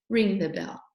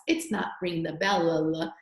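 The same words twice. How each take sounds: First: Said in the usual way. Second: "bell, la, la" with the L sound wrongly repeated; wrong take, "bell" ending in a stuttered "la, la"; doubled final L. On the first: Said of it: "It's just ring the bell". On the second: Shown as a demonstration. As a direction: tack extra "la, la" syllables onto "bell". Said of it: "you don't say it twice".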